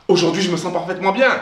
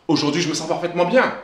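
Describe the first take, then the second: Both takes have the same delivery.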